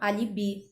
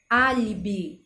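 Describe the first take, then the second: First: The stress is on a later syllable. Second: The stress is on the first syllable. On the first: The speaker calls it wrong. "a gente acaba pronunciando alibi" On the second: The speaker calls it right. "Olha a sílaba tônica lá no A"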